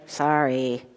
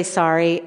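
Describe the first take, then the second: First: Low, soft, grudging mock sorry; half-hearted apology. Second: Said in the usual way. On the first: Shown as a demonstration. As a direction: mumble a sorry you don't mean. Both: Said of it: "sometimes you're just like".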